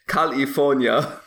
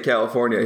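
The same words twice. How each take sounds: First: It is said in an Austrian-style accent. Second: It is said in a plain American accent. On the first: This is how the actor says it. The speaker calls it right. "He says California" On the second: This is not how the actor says it. The speaker calls it wrong. "he doesn't say California"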